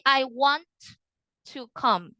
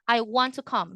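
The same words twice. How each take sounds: First: The T in 'want' is clearly pronounced. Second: The T is dropped and it's said fast. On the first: The speaker calls it wrong. "You don't say" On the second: The speaker calls it right. "You don't pronounce this T anymore, very fast"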